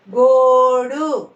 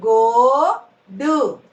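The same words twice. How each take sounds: First: Said in the usual way. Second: "గోడు" split, long rising గో, then డు; "గోడు" in two separate syllables. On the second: Shown as a demonstration. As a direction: slowly sound out "గోడు" with a gap. Teacher sounds out syllables.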